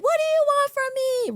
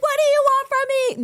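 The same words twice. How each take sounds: First: Very high, loud mock scream at the sky; Scary Movie girl screaming. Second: Very high, loud scream upward; screamed at the sky. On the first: Imitating the Scary Movie girl, very high mock scream. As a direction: shriek it like the horror movie victim. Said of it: "the girl was in the middle of the street and she was like". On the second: Retold or imitated. From the balcony to the sky, very high loud scream. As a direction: yell it up into the night sky. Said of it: "I screamed randomly at the sky".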